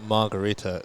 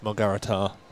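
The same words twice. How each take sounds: First: The stress falls before the final syllable. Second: The stress falls on the final syllable. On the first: The speaker calls it wrong. "it's probably not Margarita" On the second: The speaker calls it right. "they tend to stress the final syllable"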